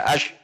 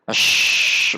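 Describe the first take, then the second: First: The final sh sound is held back abruptly. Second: The final sh sound flows on continuously. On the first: The speaker calls it wrong. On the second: The speaker calls it right.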